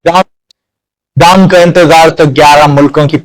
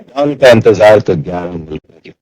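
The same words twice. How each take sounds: First: The voice sounds altered by a voice-changing effect. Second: The voice sounds natural, with no effect applied. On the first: "voice changer बहुत अच्छा काम कर रहा है" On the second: "यहाँ ये original voice है"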